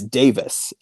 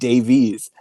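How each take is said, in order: First: The name ends with a 'vis' sound. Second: The name ends with a 'veez' sound. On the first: The speaker calls it right. "so it's Davis" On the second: The speaker calls it wrong. "I kept pronouncing it Davies"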